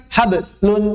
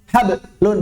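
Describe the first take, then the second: Both takes have the same delivery.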